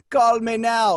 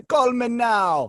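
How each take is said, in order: First: A light imitation of Miss Cleo's Jamaican ad voice; a hint of a Jamaican accent, punchy. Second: Slow, drawn-out Jamaican "call me now"; lightly imitated Jamaican accent, slow; Miss Cleo drawn out. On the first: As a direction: sell it like a Jamaican TV psychic. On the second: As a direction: stretch it like a late-night psychic ad. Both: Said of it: "her accent would slip".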